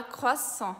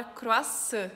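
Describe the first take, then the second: First: Croissant with throat R and nasal "on" ending; French pronunciation. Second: Croissant with a tapped R and Brazilian-style ending; Brazilian pronunciation. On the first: Teacher shows how French says it, French pronunciation of croissant. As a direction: scrape the R in croissant, end on nasal "on". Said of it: "em francês a gente fala". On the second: Teacher introduces the first word, Brazilian pronunciation of croissant. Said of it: "que em francês a gente fala". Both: Shown as a demonstration.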